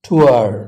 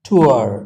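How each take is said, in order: No difference in how they are said.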